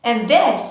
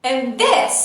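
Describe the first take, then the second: The two takes are said the same way.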